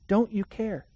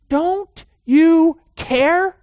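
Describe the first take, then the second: First: Said in the usual way. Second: High, loud, slow drawn-out plea; accusatory cry. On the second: Retold or imitated. Disciples shouting at sleeping Jesus, slow loud accusing plea. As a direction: stretch out "Don't you care" high and loud, accusing. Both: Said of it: "they have this accusatory tone".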